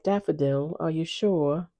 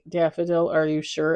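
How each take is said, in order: First: It is said in a put-on British accent. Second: It is said in her own accent.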